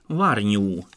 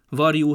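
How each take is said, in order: First: An ny sound follows the r. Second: A j sound follows the r. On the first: This is the Palóc dialect form. "szóalakokkal találkozunk" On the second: This is the standard form.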